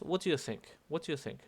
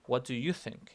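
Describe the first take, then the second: First: You slurred quickly into "do", no weight on it; unstressed you. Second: YOU set apart and weighted; stress on YOU. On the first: Teacher showing the version to avoid, you left unstressed. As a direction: skim over you without singling it out. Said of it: "No es". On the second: Teacher correcting the question, stress on YOU. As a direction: separate you from do and lean on it. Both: Shown as a demonstration.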